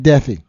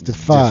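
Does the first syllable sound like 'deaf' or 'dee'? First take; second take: deaf; dee. First: The first syllable sounds like 'deaf'. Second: The first syllable sounds like 'dee'. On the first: The speaker calls it wrong. "It's not Deafy" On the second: The speaker calls it right. "It's defy"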